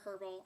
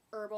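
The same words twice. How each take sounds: First: "herbal" said with a breathed H at the start; pronounced H. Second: "herbal" said without the H; silent H. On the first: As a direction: sound the H that opens "herbal". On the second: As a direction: drop the H at the start of "herbal". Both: Shown as a demonstration. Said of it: "without the H or with the H".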